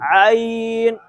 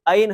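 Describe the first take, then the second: First: It begins with a tight sound from mid-throat. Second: It begins with a light glottal stop. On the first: The speaker calls it right. "इसको हलक के दरमियान से पढ़ना है" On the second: The speaker calls it wrong. "उमूमन लोग पढ़ते हैं आइन, आइन हमजा की आवाज आ जाती है"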